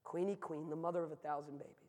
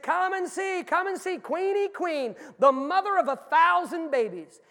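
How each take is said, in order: First: Subdued, softened retelling; hushed callback. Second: High, loud circus barker's call; booming, high-pitched sideshow pitch; carnival barker. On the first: Retold or imitated. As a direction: repeat the pitch quietly, with the show gone out of it. Grim callback to the barker's line. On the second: Acted. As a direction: holler to draw the midway crowd in, stretching the words. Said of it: "standing at the top of the ramp, and he said".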